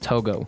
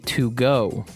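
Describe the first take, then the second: First: It does not sound like the phrase 'to go'. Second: It sounds like the English phrase 'to go'. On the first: The speaker calls it right. "it's not to go, it's Togo" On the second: The speaker calls it wrong. "I would say to go"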